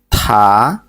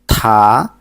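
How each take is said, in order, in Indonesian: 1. Konsonan itu disertai hembusan napas yang kuat. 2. Konsonan itu disertai hembusan napas yang kuat.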